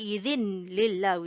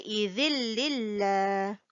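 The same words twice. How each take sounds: First: The n sound is clearly heard before l. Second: The n sound merges into the l. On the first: The speaker calls it wrong. "we do not say" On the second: The speaker calls it right. "we say"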